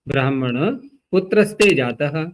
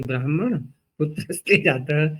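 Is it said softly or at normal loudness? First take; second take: normal loudness; softly. First: It is said at normal loudness. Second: It is said very softly.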